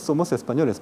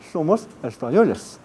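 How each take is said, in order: First: The s sounds are made with the tongue blade. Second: The s sounds are made with the tongue tip. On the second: "Pero en España, como se dice"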